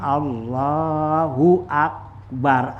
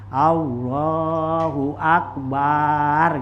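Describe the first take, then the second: First: The ba syllable of akbar is short. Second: The ba syllable of akbar is drawn out long. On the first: The speaker calls it right. "Jadi kita ucapin Allahu akbar" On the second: The speaker calls it wrong. "jangan kamu panjangin baknya akbar"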